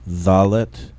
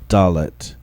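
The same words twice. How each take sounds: First: The first consonant is a soft fricative. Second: The first consonant is a hard stop. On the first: The letter has no dot inside. "first in their soft form" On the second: The letter has a dot inside. "then in the hard form with the dagesh lene"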